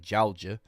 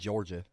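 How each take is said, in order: First: It has a heavy, drawn-out Southern accent. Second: It has only a light Southern accent.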